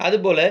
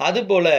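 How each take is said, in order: The two takes are said the same way.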